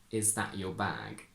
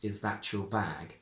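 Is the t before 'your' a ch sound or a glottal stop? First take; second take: glottal stop; ch sound. First: The t becomes a glottal stop before your. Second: The t and y merge into a ch sound. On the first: "I would say" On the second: "perfectly correct to say"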